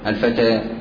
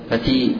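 First: The vowel after t leans from a toward i. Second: The vowel after t is a pure i. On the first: The speaker calls it right. "وإنما هي فتحة ممالة" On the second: The speaker calls it wrong. "لا تنطق بالفتحة كسرة خالصة"

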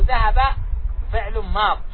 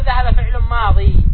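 First: The last word ends without the final vowel. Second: The last word ends with a long ee vowel. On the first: The speaker calls it right. "نقول" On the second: The speaker calls it wrong. "لا نقول"

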